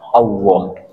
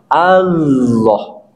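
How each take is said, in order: First: The middle consonant sounds like a W sound. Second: The middle consonant is a full, heavy L sound. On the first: The speaker calls it wrong. "lam diganti dengan huruf wawu atau huruf W" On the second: The speaker calls it right. "hurufnya huruf apa? Lam, sehingga ditafkhimkan"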